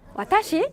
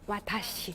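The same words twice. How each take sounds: First: The pitch rises at the end. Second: The pitch stays level or falls at the end. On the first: It asks a question. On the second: It states the word plainly.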